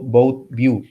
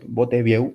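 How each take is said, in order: First: The name is said with an English pronunciation. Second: The name is said with a Spanish pronunciation. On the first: "no sé si se pronuncia así en inglés" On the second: "que se pronuncia en español así"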